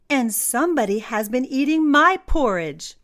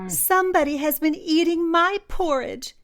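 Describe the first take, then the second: First: It is said in a medium, ordinary voice. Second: It is said in a tiny, squeaky voice.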